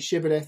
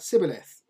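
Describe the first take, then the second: First: The word begins with an 'sh' sound. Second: The word begins with an 's' sound. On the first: "instead of saying Shibboleth" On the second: "couldn't pronounce the sh sound and it came out s"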